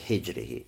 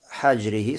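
First: The first vowel is an i sound. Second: The first vowel is an a sound. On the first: "а можно сказать с кесрой хиджрихи" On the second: "можно с фатхой хаджрихи сказать"

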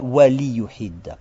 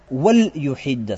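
First: The l is followed by a short i. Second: The l has no vowel after it. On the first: The speaker calls it wrong. "Почему не «вали юхидда»?" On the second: The speaker calls it right. "должна употребляться как «сукуном». Должен быть «сукун»"

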